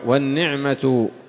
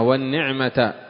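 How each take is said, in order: First: The word ends with a final u vowel. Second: The word ends with a final a vowel. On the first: The word begins a new nominal sentence. "ويجوز الرفع" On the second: The word is the object of the preceding particle. "المشهور نصب النعمة"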